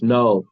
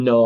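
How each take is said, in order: First: Said in the usual way. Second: "No" with the O held on and on; drawn-out O. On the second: Shown as a demonstration. Teacher showing the O can go forever, drawn-out "No". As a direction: stretch the O in "No" as long as breath allows. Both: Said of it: "You can say this O forever".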